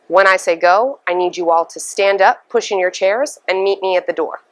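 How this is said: The voice falls at the end of the sentence.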